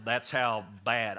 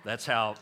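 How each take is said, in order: First: "that's how bad" drawn out slowly, each word weighted; slow down and lean on "bad"; slow emphatic stress. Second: Said in the usual way. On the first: Shown as a demonstration.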